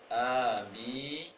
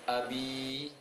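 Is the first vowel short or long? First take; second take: long; short. First: Both vowels are held long. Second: The first vowel is short, the second long. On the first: The speaker calls it wrong. "berarti dua-duanya panjang" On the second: The speaker calls it right. "a-nya pendek, b-nya panjang"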